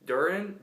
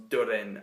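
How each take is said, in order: First: Said in the usual way. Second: Durin said lower in a mock dwarvish accent, as "Tudin"; dwarf accent. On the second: Shown as a demonstration. Reviewer repeats the name the dwarf way, dwarf accent. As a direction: growl Durin like a dwarf lord. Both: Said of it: "I have to say it in the accent of the dwarves".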